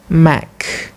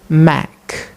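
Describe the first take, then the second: First: The vowel is a short 'e' sound. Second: The same.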